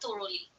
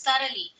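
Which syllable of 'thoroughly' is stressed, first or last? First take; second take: last; first. First: The stress is on the last syllable. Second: The stress is on the first syllable. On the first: The speaker calls it wrong. "not thoroughly" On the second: The speaker calls it right. "It's thoroughly"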